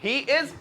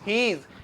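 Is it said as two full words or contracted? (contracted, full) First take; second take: full; contracted. First: Both words are said fully and separately. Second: The two words are merged into one syllable. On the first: "ही इज को मिला के" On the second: "मिला के क्या बोलते हैं"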